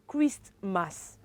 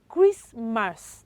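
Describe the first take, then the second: First: The T sound is pronounced. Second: The T sound is silent. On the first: The speaker calls it wrong. "not Christmas" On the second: The speaker calls it right. "The T coming after letter S is what? Is silent"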